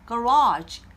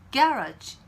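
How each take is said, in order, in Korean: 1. 강세는 두 번째 음절에 있습니다. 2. 강세는 첫 번째 음절에 있습니다. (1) "미국 발음에서는 두 번째 모음의 강세가 옵니다" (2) "영국 발음에서는요. 첫 번째 모음에서 강세가 옵니다"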